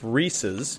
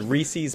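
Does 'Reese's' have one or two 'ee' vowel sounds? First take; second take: one; two. First: Only the first syllable has an 'ee' vowel. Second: Both syllables have an 'ee' vowel, like 'feces'. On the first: The speaker calls it right. "it belongs to a man named Reese. So it's Reese's" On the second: The speaker calls it wrong. "You said Reese's Pieces, which sounds like feces"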